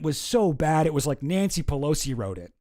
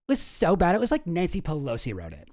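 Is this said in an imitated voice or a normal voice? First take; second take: normal; imitated. First: It is read in the speaker's ordinary voice. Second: It is said in a put-on imitated voice.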